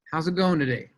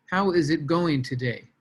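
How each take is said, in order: First: Said in the usual way. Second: "How is it going today?" with every word spelled out and a hit on "How"; uncontracted "How is", stilted and mechanical; stiff scripted reading. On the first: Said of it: "Yes, those are the right words". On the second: Shown as a demonstration. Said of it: "but nobody talks like that".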